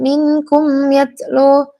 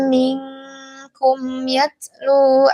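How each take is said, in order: First: The n is pronounced clearly and distinctly. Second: The n is hidden in a nasal hum. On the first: The speaker calls it wrong. "jangan dibaca yang dibaca jelas minkum" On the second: The speaker calls it right. "ikhfa hakiki yang dibaca ikhfa"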